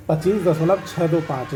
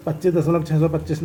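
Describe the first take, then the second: First: Digits after the point read one by one: छः दो पाँच; teacher demonstrating the right way, each digit separate; correct reading. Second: Decimal part read as a whole number: छः सौ पच्चीस; teacher demonstrating the wrong way, छः सौ पच्चीस as one number. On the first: Teacher showing students how to read 25.625, digit by digit. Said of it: "इसको ऐसे पढ़ा जाएगा". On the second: Teacher showing students how not to read 25.625, plain demo. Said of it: "नहीं". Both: Shown as a demonstration.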